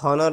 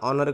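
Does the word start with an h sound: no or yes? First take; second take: yes; no. First: The word begins with an h sound. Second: The word begins directly with a vowel. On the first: The speaker calls it wrong. "इथं हॉनर नाही करायचं" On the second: The speaker calls it right. "Pronunciation करताना ऑनर करायचं"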